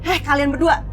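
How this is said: It is said angrily, with strong emotion. The speaker calls it right. "Emosinya tuh kok luapin aja. Kamu kesal sama mereka"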